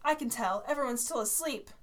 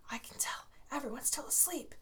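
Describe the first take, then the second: First: Said in the usual way. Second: Soft unvoiced whisper. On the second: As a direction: whisper it to a classmate. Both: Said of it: "Tyler whispered to Joe".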